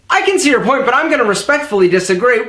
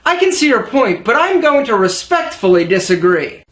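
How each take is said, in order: First: It is spoken very fast and rushed. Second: It is spoken clearly at a steady pace. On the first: The speaker calls it wrong. "Whoa, slow down, jockey. There's no race" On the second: The speaker calls it right. "Check it out"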